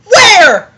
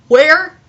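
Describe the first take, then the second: First: High, loud "Where"; loud exclaimed question. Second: Said in the usual way. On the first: Acted. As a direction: fire the question out sharply. First take of character's question.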